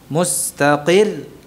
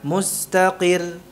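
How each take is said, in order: First: The final doubled letter is pressed with extra force. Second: The final doubled letter is said without extra force. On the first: "ditekan gitu ya" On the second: "Beda dengan"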